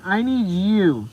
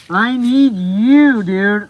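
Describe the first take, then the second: First: Said in the usual way. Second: Drawn-out, loud pleading; loud slow plea. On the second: Real, not acted. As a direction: beg him with every word. Pleading with viewer to come.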